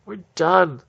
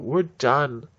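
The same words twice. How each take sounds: First: Higher, loud yell; full mock yell. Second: Loud and final, fed up; mock shout. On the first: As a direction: yell it at the top of your lungs. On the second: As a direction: slam it down like you're quitting. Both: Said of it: "throw up their hands and go".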